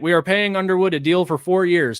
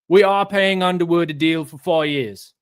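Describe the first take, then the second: First: It is spoken in the speaker's normal accent. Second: It is spoken in a put-on English accent.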